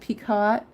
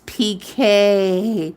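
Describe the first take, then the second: First: It is said as spelled, ending in t. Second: It is said like pee-kay, without t. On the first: It follows the spelling. "I used to pronounce it Picot because" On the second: It follows the traditional usage. "it's not pronounced that way, it's P K"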